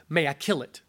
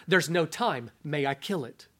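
First: Low, calm, grave question; stern angel voice. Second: Low, quiet, insistent; stern angel voice. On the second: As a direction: press the question softly. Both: Acted.

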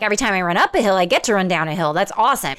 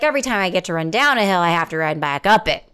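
First: Cheerful, glass-half-full take on the hill line; upbeat optimist. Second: Rushed, gloomy glass-half-empty take; glum pessimist. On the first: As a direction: say it like the downhill is a gift. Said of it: "I'm like". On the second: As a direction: rattle it off like a complaint. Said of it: "Do you hear the difference there?". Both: Retold or imitated.

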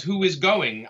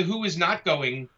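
First: "is" picked out as a correction; stress on IS. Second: "not" drawn out and picked out; slow down and lean on "not"; stress on NOT. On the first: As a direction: lean on "is" in "who is going". Correcting those who misread his question. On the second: Contrasting it with the misread question. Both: Retold or imitated.

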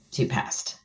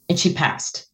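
First: A stunned whisper, breathless. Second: Said in the usual way. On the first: Real, not acted. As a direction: barely let the words out. Repeats the moment of death, whispered.

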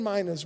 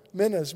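First: Minas said MY-nuhz, long i first; first vowel of minas as in "my". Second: Minas said with a short first vowel, MIN-uhz; first vowel of minas short, near "men". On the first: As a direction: say minas with an eye sound, MY-nuhz. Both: Shown as a demonstration. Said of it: "minas or minas or however you want to say it".

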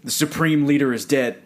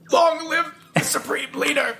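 First: Said in the usual way. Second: High, proclaiming state broadcaster voice; north korean newsreader. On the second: Retold or imitated. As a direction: announce it like propaganda radio. Quoting the movie scene.

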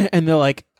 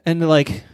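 The two takes are said the same way.

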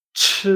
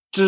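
First: CH released with a loud puff of air; vibration with air. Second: CH buzzed as unaspirated zh; vibration without air. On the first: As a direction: blow air out through CH. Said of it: "vibración con aire". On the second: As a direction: buzz CH with no puff of air. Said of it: "vibración sin aire". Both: Shown as a demonstration.

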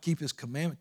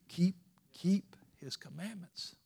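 First: Said in the usual way. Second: "keep" said over and over, slowed, each one pressed; stutter-stress "keep" on purpose; repeated KEEP stressed. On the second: Shown as a demonstration. Preacher stressing keep to the church. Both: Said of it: "emphasizing the word keep".

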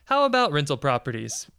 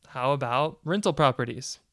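First: "How about rental properties?" repeated louder. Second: Said in the usual way. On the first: Shown as a demonstration.

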